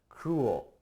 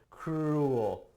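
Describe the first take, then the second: First: The R sound is said lightly. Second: The R sound is strongly emphasized. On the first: The speaker calls it right. "actually, no, not so much, but cruel" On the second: The speaker calls it wrong. "you gotta put that emphasis on the R"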